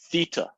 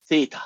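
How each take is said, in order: First: Theta with a heavy "ee": THEE-ta; heavy E sound. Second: Theta as THAY-ta, with an "ay" vowel; American pronunciation. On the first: Shown as a demonstration. Teacher showing the class how they hear it, theta with a heavy E. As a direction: say theta with a strong long E in the first syllable. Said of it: "It's a heavy E sound". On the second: Retold or imitated. Teacher imitating most Americans, theta with an "ay" vowel. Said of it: "That's a very feminine sound to me".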